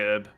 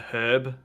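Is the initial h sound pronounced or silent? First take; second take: silent; pronounced. First: The word begins without any h sound. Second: The word begins with an audible h sound. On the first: "he will say herb" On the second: "I use it with the H"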